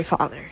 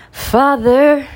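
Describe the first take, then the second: First: Mock-solemn low. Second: Higher and louder, a hammed-up cry; mock plea. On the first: Apologizing to her dad, a hushed low Father. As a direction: lower and softer, a hushed apology. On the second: Pleading to her listening dad, a hammed-up loud Father. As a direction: call out Father in mock despair.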